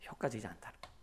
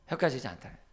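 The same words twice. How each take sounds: First: Softly stressed point. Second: Said in the usual way. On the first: Shown as a demonstration.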